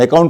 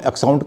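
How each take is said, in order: First: The double c sounds like k. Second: The double c sounds like ks. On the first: The speaker calls it right. "Double सी का उच्चारण क" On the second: The speaker calls it wrong. "ना अकाउंट को हम एक्साउंट कहते हैं"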